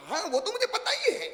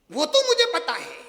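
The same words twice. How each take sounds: First: High laughing mock know-it-all; know-it-all bride. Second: Loud smug brush-off; know-it-all bride. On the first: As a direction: toss it off high and smug, laughing. (हँसती हुई ऊँची आवाज़ में शेखी) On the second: Retold or imitated. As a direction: brush her off, loud and sure. Repeated know-it-all line. (ज़ोर से, घमंड भरा)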